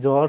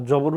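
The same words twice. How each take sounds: First: "জ্বর" said as jor, with no b sound; silent b. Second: "জবর" said as jobor, with the b voiced; sounded b. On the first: Teacher giving students the correct form, "জ্বর" with silent b. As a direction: drop the b in "জ্বর": one syllable, jor. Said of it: "উচ্চারণ করি কি?". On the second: Teacher showing what we don't say, "জবর" with sounded b. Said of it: "জবর উচ্চারণ করি না". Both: Shown as a demonstration.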